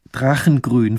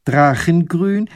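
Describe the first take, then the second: First: Said in the usual way. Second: Higher, slow, rising question; surprised echo. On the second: A narrator's reading. Lady echoes the painter's colour in slow surprise. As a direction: echo it back in disbelief.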